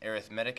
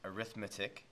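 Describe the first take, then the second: First: It has the adjective stress pattern. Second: It has the noun stress pattern. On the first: It describes what kind of thing something is. The speaker calls it right. "I'm saying arithmetic" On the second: It names the subject of calculation. The speaker calls it wrong. "not arithmetic"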